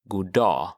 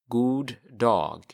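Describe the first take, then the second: First: The two words run together, G dropped. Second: The two words are said separately, G pronounced.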